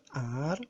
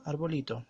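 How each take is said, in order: First: "arbolito" split into ar, bo, li, to with pauses; syllable by syllable. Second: Said in the usual way. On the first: Shown as a demonstration. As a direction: sound out "arbolito" one syllable at a time.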